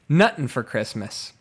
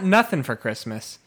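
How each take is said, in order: First: The first word has a 't' sound. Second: The first word has a 'th' sound. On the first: The speaker calls it right. "It's nuttin' for Christmas" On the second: The speaker calls it wrong. "it's not nothing for Christmas"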